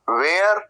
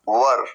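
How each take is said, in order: First: It is said with a 'wear' vowel glide. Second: It is said as a short 'wer'. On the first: The speaker calls it wrong. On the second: The speaker calls it right.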